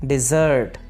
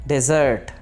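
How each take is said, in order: No difference in how they are said.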